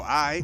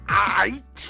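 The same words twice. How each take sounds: First: It is said casually and relaxed, without emphasis. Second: It is said with heavy, over-articulated emphasis. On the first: It is a natural, offhand reply. The speaker calls it right. "We just go" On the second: It sounds forced and unnatural. The speaker calls it wrong. "they say it with such an emphasis. There's no naturalness to it"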